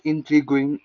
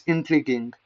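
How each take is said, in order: First: INTRIGUING with the U sounded, ending in "gwing"; mispronounced GU. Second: INTRIGUING with a hard G and no W, "in-tree-ging"; silent U. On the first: Learner showing viewers the mistake, INTRIGUING with a "gw". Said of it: "It's not intriguing". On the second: Learner correcting himself for viewers, INTRIGUING with silent U. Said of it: "This U is silence". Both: Shown as a demonstration.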